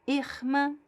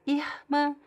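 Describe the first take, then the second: No difference in how they are said.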